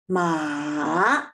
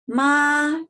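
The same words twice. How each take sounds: First: The pitch dips down low, then rises. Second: The pitch stays high and level throughout. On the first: "down, right? ... and then ah... the third tone" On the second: "it is the highest pitch... I keep the highest pitch stable... it is the first tone"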